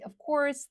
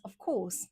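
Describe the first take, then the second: First: American "of course" with a sounded r, pitched up; American accent. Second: British "of course", r dropped and long vowel; British accent. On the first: American take against British one. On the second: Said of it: "I used to have, like, really, uh, strong British accent". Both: Shown as a demonstration.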